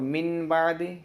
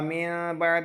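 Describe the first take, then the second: First: The n sound is pronounced clearly before b. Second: The n sound is nasalized and hidden before b. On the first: "ये पढ़ना अलग लग रहा है" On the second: "इख्फा मिन बाद ये भी करना ये मुश्किल है"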